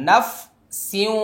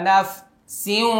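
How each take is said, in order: The two takes are said the same way.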